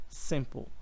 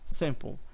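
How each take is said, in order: Both takes have the same delivery.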